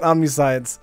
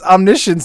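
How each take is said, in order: First: The ending sounds like the word 'science'. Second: The ending sounds like 'shuns'. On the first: The speaker calls it wrong. "not Omniscience" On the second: The speaker calls it right. "it's Omniscience"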